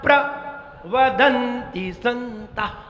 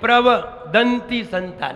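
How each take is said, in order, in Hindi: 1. शब्द को pra और फिर vadanti में बांटा गया है। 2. शब्द को prava और फिर danti में बांटा गया है। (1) "प्र उपसर्ग है, तो प्र पहले कह दो" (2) "लोग ऐसे पढ़ते प्रवदन्ति संता, नहीं नहीं, दंती माने दांत हो जाएगा"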